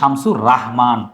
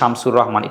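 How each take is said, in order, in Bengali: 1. পদবিটি দীর্ঘ 'raa' ধ্বনি দিয়ে শুরু হয়। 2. পদবিটি হ্রস্ব 'ro' ধ্বনি দিয়ে শুরু হয়। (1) "তিনি হচ্ছে শামসুর রাহমান" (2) "একটু প্রশ্ন ভুল বলছি"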